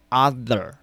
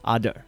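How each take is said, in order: First: The th is forced, with a harsh scraping sound. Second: The th sounds like a d. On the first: "发音太过用力，就是气吐的太多，然后把舌头咬得太紧" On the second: "好像看上一个d 的音"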